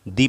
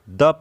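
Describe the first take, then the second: First: The vowel is a long 'ee' sound. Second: The vowel is a short 'uh' sound. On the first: The next word starts with a vowel sound. "T H E को दी पढ़ेंगे" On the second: The next word starts with a consonant sound. "T H E को द पढ़ेंगे"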